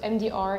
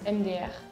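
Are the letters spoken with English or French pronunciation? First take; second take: English; French. First: The letter names are spoken in English. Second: The letter names are spoken in French.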